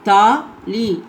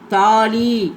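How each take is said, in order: First: The syllables are said separately with a break. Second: The syllables are joined smoothly without a break. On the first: "தனியாக படிக்கிறப்ப பிரித்து படிக்கணும்" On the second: "அப்புறம் சேர்த்து படிக்கணும்"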